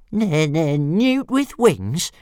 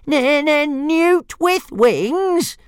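First: High, slow sing-song mimicry; mocking dragon voice. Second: Much higher and very slow, louder sing-song; squeaky dragon taunt. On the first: Dragon mocking the bully's insult, high and slow. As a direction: draw out the taunt like a cheeky little dragon. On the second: Acted. Toothless parroting the insult back, very high and slow. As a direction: stretch every word in a shrill little-dragon mock. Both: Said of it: "repeated Toothless".

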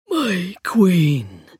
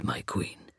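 First: Rasping, echoing undead voice; skeleton voice. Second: Low, soft hollow whisper; skeleton voice. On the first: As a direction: rasp it like a hollow echo. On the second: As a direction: rasp it out softly. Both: A narrator's reading. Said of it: "like a rasping echo".

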